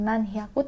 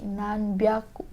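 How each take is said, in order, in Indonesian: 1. Bagian kedua dimulai dengan bunyi h. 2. Bagian kedua dimulai dengan bunyi b. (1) "dia bukan nan hyaku" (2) "tapi nan byaku"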